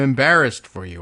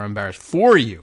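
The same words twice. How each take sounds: First: The word 'for' is not stressed. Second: The word 'for' is stressed.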